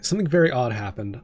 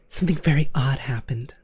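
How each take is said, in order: First: It is read in his normal voice. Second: It is read in a put-on little girl voice.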